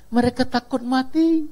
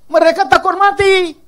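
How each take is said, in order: First: Said in the usual way. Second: Higher and louder, punching mati; emphatic repeat. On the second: Real, not acted. Preacher repeating to the congregation, emphatic and louder. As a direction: hammer the point home.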